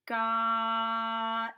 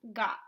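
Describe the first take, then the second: First: "Got" with the vowel held long, louder, then a quick t; sounded out slowly. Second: Said in the usual way. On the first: Shown as a demonstration. Teacher showing the student again, "Got" sounded out slowly. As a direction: draw out the middle of "Got" on one level note. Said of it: "This is a fast sound". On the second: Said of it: "What word?".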